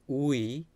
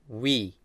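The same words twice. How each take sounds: First: The vowel is split into two separate sounds. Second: The vowel is blended into one single sound. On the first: The speaker calls it wrong. "It's not we" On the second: The speaker calls it right. "Even double vowel has one sound"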